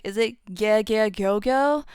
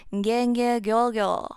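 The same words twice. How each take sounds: First: "gye, gye, gyo, gyo" as a question, rising on the last "gyo"; unsure wrong version. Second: "gye, gye, gyo, gyo" as a firm answer, not a question; corrected version. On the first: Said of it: "if you don't remember". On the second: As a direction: state "gye" and "gyo" with the final "gyo" settling down. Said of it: "It's completely different". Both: Shown as a demonstration.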